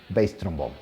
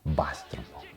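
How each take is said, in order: First: The word bass rhymes with base. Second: The word bass rhymes with gas. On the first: It names the low-pitched instrument. The speaker calls it right. "Ellos le dicen bass trombón" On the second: It names the fish. The speaker calls it wrong. "no es bass trombón. Bass significa lubina"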